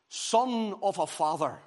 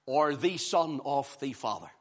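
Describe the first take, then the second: First: Son of a Father slow and weighty, stress on Son; emphatic title. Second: Or the Son of the Father dropped lower, stress on or; lower contrast. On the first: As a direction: lay out the title slowly, each word weighted. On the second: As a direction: answer the title in a lower settled voice. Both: Shown as a demonstration. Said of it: "I have entitled this message".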